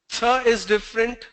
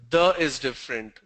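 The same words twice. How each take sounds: First: Unvoiced TH, held up for contrast; th contrast demo. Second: "the" as the voiced th of this, falling tune; voiced TH, closing the contrast low; voiced th demo. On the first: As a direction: say "Th" voiceless, as in think, tune rising. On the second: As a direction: say "the" buzzed, as in these, pitched down. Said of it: "The means this". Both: Shown as a demonstration.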